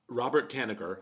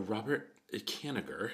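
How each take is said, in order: First: The name is said in a plain tone. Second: The name is said in a sarcastic, air-quote tone.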